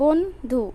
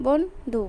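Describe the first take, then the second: No difference in how they are said.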